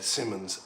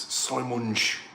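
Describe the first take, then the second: First: The name is pronounced in an English way. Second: The name is pronounced in a Dutch way.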